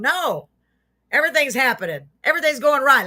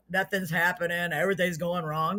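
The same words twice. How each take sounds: First: Higher, brighter-pitched rebuttal; upbeat positive. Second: Subdued mock complaining; mock gloom. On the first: Acted. Host urges viewers to think positive, upbeat correction. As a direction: counter the gloom with lifted, emphatic cheer. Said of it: "Let's think positive". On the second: Host mimics negative people for viewers, mock gloom. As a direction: moan softly like a pessimist. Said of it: "Life is too short to be all".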